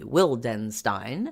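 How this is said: The surname is said with an English pronunciation. "in uh, English it tends to be"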